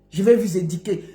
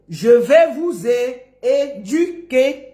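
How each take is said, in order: First: Low mock "édiquer" for "éduquer"; mispronounced quote. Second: Slow, syllable by syllable "é-du-quer" for "éduquer"; drawn-out teaching of "éduquer"; correct pronunciation. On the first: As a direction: mimic "di" in place of "du" in "éduquer". Mocking his mispronunciation. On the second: Shown as a demonstration. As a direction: spell out "éduquer" in sound, with rounded "u". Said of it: "Apprends d'abord à dire éduquer".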